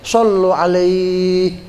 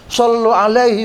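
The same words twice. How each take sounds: First: The ending of alaihi is held long. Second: The ending of alaihi is kept short. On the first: The reading stops at this word. "Kalau kita bacanya berhenti, sallu alaihi, panjang" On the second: The reading continues to the next word. "sallu alaihi wasallimu, itu jadi pendek"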